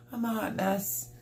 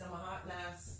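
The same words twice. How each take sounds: First: High, teary laugh through the words; half laughing, half crying; laughing at herself. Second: Trailing off. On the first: Flustered host laughing at her own mess. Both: Real, not acted.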